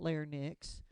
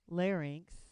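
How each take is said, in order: First: The ending sounds like 'nix', N before the vowel. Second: The ending sounds like 'inks', vowel before the N. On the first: The speaker calls it wrong. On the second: The speaker calls it right.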